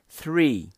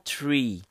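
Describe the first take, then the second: First: It begins with a soft th sound. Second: It begins with a hard t sound. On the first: The speaker calls it right. "O correto é three" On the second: The speaker calls it wrong. "e não tree"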